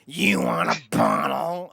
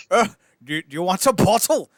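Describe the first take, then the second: First: Slow, drawn-out put-on voice; awful-sounding parent. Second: Loud, higher put-on voice; awful-sounding parent. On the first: Other parent offering baby a bottle, slow mock-awful voice. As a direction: drag each word out in a comically awful voice. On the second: Parent offering the poor baby a bottle, mock awful voice. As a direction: blurt it as a comically grating parent. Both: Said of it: "you're both the worst sounding".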